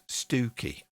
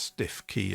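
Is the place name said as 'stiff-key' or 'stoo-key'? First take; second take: stoo-key; stiff-key. First: It is said as one word, stoo-key. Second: It is said as two words, stiff key. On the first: It follows how locals actually say the name. The speaker calls it right. "It's pronounced Stooky" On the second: It follows how the name is written. The speaker calls it wrong. "it's not pronounced stiff key at all"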